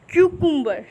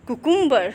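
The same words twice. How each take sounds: First: क्यूकुम्बर with a clear क्यू glide; correct take. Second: कुकुम्बर with a plain कु start; wrong take. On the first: Teacher giving the right version with the y glide. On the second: Teacher giving the mistaken version first, plain कु. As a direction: say कुकुम्बर without the y glide. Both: Shown as a demonstration.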